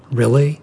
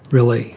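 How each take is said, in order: First: REALLY lifted into a rising question. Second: REALLY settled, without the questioning rise; confirming. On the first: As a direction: ask "Really" with the pitch going up at the end. Imp asks in hopeful surprise. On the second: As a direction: answer "Really" evenly, as a simple confirmation. Mermaid confirms the imp's question. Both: A narrator's reading.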